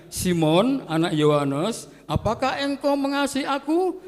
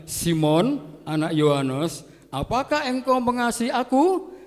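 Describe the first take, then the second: The two takes are said the same way.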